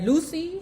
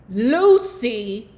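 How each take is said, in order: First: The first vowel sounds like in 'loose'. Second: The first vowel sounds like in 'loud'. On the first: "we'll do the Lucy to shut you ninjas up" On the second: "I'm pronouncing it lousy because you know how the word loud is spelled?"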